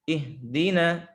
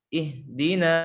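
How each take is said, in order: Both takes have the same delivery.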